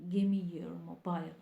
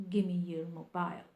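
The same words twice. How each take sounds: The two takes are said the same way.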